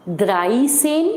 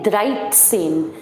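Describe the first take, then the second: First: द्राई सेन said flat with no t sound; the wrong way, द्राई सेन without the t; wrong dreizehn. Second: द्राइट सेन with a t before the ts; the right way, a crisp t in द्राइट; correct dreizehn. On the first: Teacher showing students the mistake to avoid, flat द्राई सेन. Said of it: "It is not". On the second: Teacher showing students the correct द्राइट सेन. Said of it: "ये है". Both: Shown as a demonstration.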